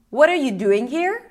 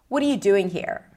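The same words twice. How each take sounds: First: The voice rises at the end. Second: The voice falls at the end. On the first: The speaker calls it wrong. "I'm not saying, what are you doing here? ... Like I'm not opening it up at the end" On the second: The speaker calls it right. "the intonation that we use for WH questions is the same intonation that we use for statements"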